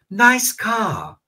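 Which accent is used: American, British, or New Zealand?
British. It is said in a British accent, R dropped. "Peppa Pig dice"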